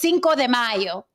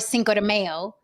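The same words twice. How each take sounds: First: It is said with a Spanish accent. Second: It is said with an American English accent.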